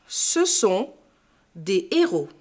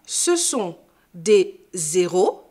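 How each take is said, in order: First: «des héros» sans liaison, sans z; détache bien «des» de «héros». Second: «des zéros» avec un z de liaison, lentement; liaison fautive. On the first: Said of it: "pas faire de liaison devant un H aspiré". (prononciation correcte sans liaison) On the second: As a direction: fais sonner le z devant «zéros». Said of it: "On ne dit pas". (mauvaise liaison en z devant «héros») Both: Shown as a demonstration.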